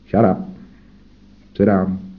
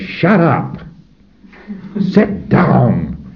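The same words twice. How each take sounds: First: It is said in a calm, firm tone. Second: It is said in an angry, emotional tone. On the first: The speaker is controlling the listener without emotion. The speaker calls it right. "Nice tone 40" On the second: The speaker is emotionally overwhelming the listener. The speaker calls it wrong. "Don't say"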